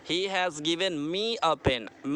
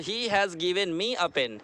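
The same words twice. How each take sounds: First: Slowly again, stressing me; slow repeat. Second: Slowly, word by word; slow teaching read. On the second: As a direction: spell it out slowly for the class. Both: Shown as a demonstration. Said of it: "Me क्या होगा?".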